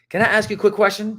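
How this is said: It sounds confident and full of energy. The caller seems sure and makes people curious. The speaker calls it right. "I'm bringing in the energy"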